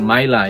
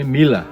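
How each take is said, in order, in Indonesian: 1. Vokal pertama terdengar seperti eye. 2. Vokal pertama terdengar seperti ee. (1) "bukan Maila" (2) "you can call me Mila"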